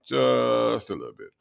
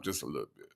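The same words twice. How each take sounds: First: "Just" stretched out long before "a little bit"; stress on Just. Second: Said in the usual way. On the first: Real, not acted. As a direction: draw out the word "Just". Repeats it for drawn-out emphasis.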